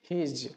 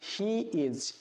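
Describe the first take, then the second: First: It is shortened into one syllable. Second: It is said as two separate words. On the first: "যদি এর contraction করি তাহলে সেটি হয়ে যাবে" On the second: "সাধারণ ইংরেজি হলো he is"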